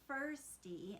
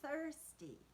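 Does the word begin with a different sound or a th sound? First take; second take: different sound; th sound. First: The first sound is not a th sound. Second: The first sound is a th sound. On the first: A child is mispronouncing the word. The speaker calls it wrong. "she was saying things like thirsty" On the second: The word is said the standard way. The speaker calls it right. "instead of thirsty"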